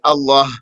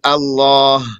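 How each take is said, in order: First: The long vowel is dropped; the final h stays. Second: The word has both the long vowel and final h. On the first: "omit the alif and say Allah" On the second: "they'd say Allah"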